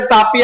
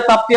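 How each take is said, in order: First: तापी as two open syllables, taa-pee; name without P-sound cluster. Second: ताप्ती with a T sounded right after the P; name with PT cluster. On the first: Teacher shows students one accepted river name, तापी said as taa-pee. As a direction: say तापी with a plain "pee" ending, no T after the P. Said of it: "कई लोग इसको तापी भी पढ़ते हैं". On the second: Teacher shows students the other accepted river name, ताप्ती said as taap-tee. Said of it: "कई लोग ताप्ती भी बोलते हैं". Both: Shown as a demonstration.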